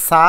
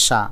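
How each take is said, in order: First: সা with a hissed dental s, "saa"; tongue-forward "s" in সা; s sound. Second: সা with a palatal sh, "shaa"; "sh" at the start of সা; sh sound. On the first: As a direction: say সা as in Salma, with s. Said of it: "উচ্চারণ এখানে সা". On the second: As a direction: say সা as in shahosh, with sh. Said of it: "এখানে সা". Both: Shown as a demonstration.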